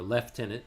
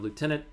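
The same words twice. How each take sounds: First: It is said with a British pronunciation. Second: It is said with an American pronunciation.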